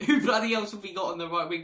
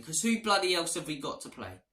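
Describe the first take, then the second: First: Louder, higher, laughing through the question; laughing exasperation. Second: Said in the usual way. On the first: Real, not acted. Fan laughing at Spurs' lack of right wingers, exasperated. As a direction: laugh in disbelief at the empty squad.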